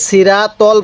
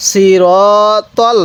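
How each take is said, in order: First: সিরাতল said quickly with a flat, light raa; careless, unstretched সিরাতল; common mistake demo. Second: সিরাতল with a long, rounded "ro"; measured সিরাতল with full, held vowels; correct recitation demo. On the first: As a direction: rush সিরাতল, no rounded long vowel. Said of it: "অনেকেই সিরাতল পড়ি". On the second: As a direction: draw out the middle of সিরাতল, heavy r. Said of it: "সি, সজ্জের সি". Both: Shown as a demonstration.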